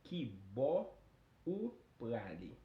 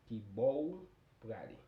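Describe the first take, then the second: First: The phrase is said at a normal, careful speed. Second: The phrase is said quickly with the pronoun reduced.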